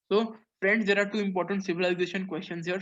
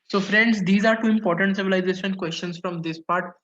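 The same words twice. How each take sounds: First: Said in the usual way. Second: A teacher's louder call to attention; louder restart to the class. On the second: Real, not acted. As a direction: raise your voice to regain the class.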